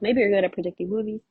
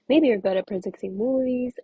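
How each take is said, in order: First: It is said fast. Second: It is said slowly.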